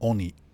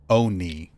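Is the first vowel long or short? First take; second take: short; long. First: The first vowel is short and clipped. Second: The first vowel is drawn out like oh. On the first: "oni with the shorter o sound" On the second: "sounding like there's an H, like O H K N E E"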